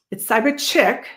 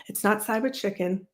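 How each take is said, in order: First: "Cyber Chick" said clearly as the right name, a bit louder; corrected name. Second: "Cyber Chicken" read back as the wrong name; wrong name quoted. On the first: Streamer correcting a viewer, firmly stating "Cyber Chick". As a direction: set the chat straight on "Cyber Chick". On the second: Streamer to chat, quoting the misread "Cyber Chicken". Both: Shown as a demonstration.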